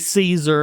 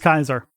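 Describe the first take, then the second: First: The name is said the modern English way. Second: The name is said the classical Latin way. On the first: "people nowadays just say Caesar" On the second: "the proper Latin pronunciation is Julius Caesar"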